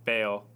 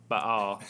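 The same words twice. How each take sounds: First: Baal said as "bail"; Anglicized pronunciation. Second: Baal said in two syllables, "bah-AHL"; alternative pronunciation. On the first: Speaker amends his answer, first giving the Anglicized Baal. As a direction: say Baal in one syllable, rhyming with "pale". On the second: Speaker covers both pronunciations, broad two-syllable Baal. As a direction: open Baal out to "bah-all", a little louder. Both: Shown as a demonstration. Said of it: "amend my answer and say Baal".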